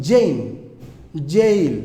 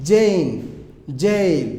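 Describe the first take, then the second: Both takes have the same delivery.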